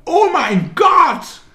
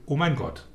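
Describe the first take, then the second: First: Shrieked very high, loud and slow; hammed-up squeal of a contestant entering a room; stretched-out mock scream of delight; mock excited shriek. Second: Offhand, a little higher, dropping away; understated imitation of a blasé contestant; mock bored reaction. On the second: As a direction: toss it off as a lightly mocked shrug. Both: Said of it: "auf ungefähr eine Milliarde verschiedene Weisen sagen kann".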